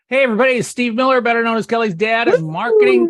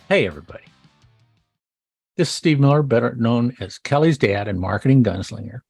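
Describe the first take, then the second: First: It is said in a lively, enthusiastic tone. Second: It is said in a calm, professional tone.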